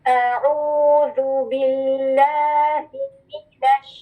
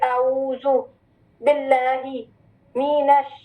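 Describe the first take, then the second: First: The words flow together without breaks. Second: Each word is separated by a break. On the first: The speaker calls it right. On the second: The speaker calls it wrong.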